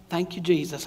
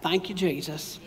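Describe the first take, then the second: First: Soft, low Southern "Thank you, Jesus"; hushed Southern church thanks; Southern accent. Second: Said in the usual way. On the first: Real, not acted. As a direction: say it quietly with a Southern twang. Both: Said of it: "wanted to go Southern on that".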